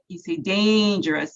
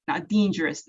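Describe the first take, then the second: First: The first vowel is a held long A. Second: The first vowel is a long E. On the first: The speaker calls it right. "holding out that long A vowel sound" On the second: The speaker calls it wrong. "pronouncing it the way that Gabriel had said it"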